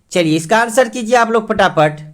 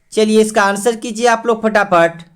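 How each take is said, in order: No difference in how they are said.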